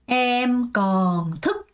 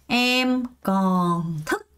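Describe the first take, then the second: No difference in how they are said.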